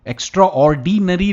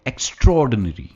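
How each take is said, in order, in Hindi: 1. यह दो हिस्सों में बोला जाता है, एक्स्ट्रा और ऑर्डिनरी। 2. यह एक जुड़े हुए शब्द की तरह बोला जाता है, ज़ोर 'straw' पर। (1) "एक्स्ट्रा ऑर्डिनरी नहीं कहते" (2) "हम स्ट्रेस स्ट्रॉ पर करते हैं"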